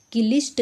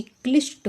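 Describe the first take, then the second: First: क्लिष्ट said "ki-lisht"; wrong extra-vowel demo. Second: क्लिष्ट said "klisht" in one syllable; correct cluster demo. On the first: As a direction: put an i between k and l in क्लिष्ट. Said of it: "क्लिष्ट गलत है". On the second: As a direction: run k straight into l in क्लिष्ट. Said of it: "क्योंकि क्लिष्ट होगा". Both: Shown as a demonstration.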